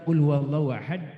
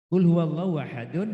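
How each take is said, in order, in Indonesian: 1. Kata terakhir berakhir dengan d yang qalqalahnya kuat. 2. Kata terakhir berakhir dengan harakat vokal penuh. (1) "itu kubroh. Karena dalnya sukun disebabkan wakof" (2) "tulisannya adalah qul huwallahu ahadun"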